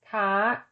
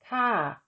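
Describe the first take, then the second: First: The syllable is said with a high tone. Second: The syllable is said with a falling tone. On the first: "with tone mark two, the tone is high" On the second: "With tone mark one, the tone is falling"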